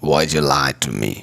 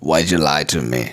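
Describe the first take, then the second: The two takes are said the same way.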